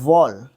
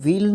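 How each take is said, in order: First: The word is said with an aw vowel. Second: The word is said with an ee vowel. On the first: The speaker calls it right. "इसको pronounce करते हैं वॉल" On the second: The speaker calls it wrong. "व्हील नहीं बोलते इसको"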